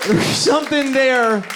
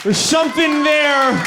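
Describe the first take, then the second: First: Repeat. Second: High, slow shouted point. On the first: Repeated point, slightly softer. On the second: Comic shouting at the audience, high and slow. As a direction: hammer it home at the crowd. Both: Acted.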